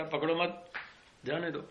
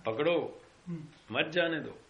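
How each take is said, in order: First: "पकड़ो मत" as one phrase, break, then "जाने दो"; pause after मत. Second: "पकड़ो", clear break, then "मत, जाने दो" run together; pause after पकड़ो. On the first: Jailer showing what constables understood, pausing after "पकड़ो मत" before "जाने दो". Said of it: "और तुमने समझा". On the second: Jailer showing what he meant, pausing after "पकड़ो" before "मत, जाने दो". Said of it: "मैं तो ये कह रहा था". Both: Shown as a demonstration.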